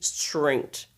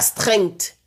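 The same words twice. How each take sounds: First: The R is an American R. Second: The R is not an American R. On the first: The speaker calls it right. "C'est strength. Le R américain" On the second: The speaker calls it wrong. "C'est pas strength"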